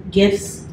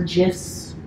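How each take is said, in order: First: "gifs" said with a hard G as in "gift". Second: "gifs" said with a soft G, like "jifs". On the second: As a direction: say "gifs" as if spelt with a J. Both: Shown as a demonstration. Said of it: "there's a big debate on, like, how you say it".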